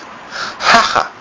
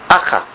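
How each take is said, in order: First: The word begins with an audible h sound. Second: The word begins directly with a vowel. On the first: This is the original Aramaic pronunciation. "Hacha is a H, it has sound" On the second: The h was dropped in the land of Israel.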